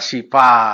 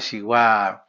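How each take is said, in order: First: The second consonant is a 'p' sound. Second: The second consonant is a 'w' sound. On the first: The speaker calls it wrong. "dia apa pengucapannya juga kayak uh" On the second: The speaker calls it right. "itu kan bacaannya Siwa"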